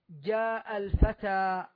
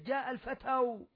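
First: The last word ends in a plain long a. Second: The last word ends with an added u vowel. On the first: The speaker calls it right. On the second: The speaker calls it wrong.

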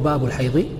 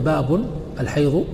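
First: The first word ends without an n sound. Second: The first word ends with an added n sound. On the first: "وعدمه" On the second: "باب بالتنوين"

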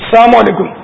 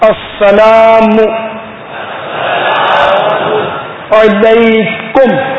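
First: It is said hurriedly, the ain sound slurred. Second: It is said carefully, the ain from the throat. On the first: The speaker calls it wrong. "تو جلدی جلدی میں" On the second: The speaker calls it right. "یہ عین نکلے گا حلق سے"

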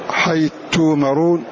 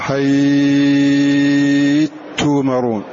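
First: The vowel before the merged letter is held short. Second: The vowel before the merged letter is held long. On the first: "جاز فيه القصر والتوسط والإشباع" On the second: "أو تشبع"

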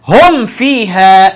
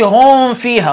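First: The m is pronounced clearly before the f. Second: The m is hidden, blending into the f. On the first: The speaker calls it right. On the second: The speaker calls it wrong.

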